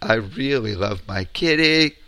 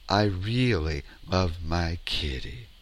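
First: It sounds worried, off the home note. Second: It is said sincerely, on the home note.

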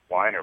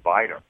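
First: The name begins with a W sound. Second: The name begins with a V sound. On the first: This is the changed, everyday pronunciation. "but it's whiner" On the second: This is the original pronunciation. "but it's really viner. Look at it the way it's supposed to be pronounced"

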